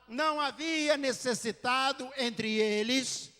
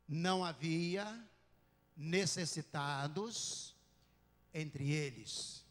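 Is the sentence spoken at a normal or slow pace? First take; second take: normal; slow. First: The sentence is spoken at a normal pace. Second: The sentence is spoken very slowly.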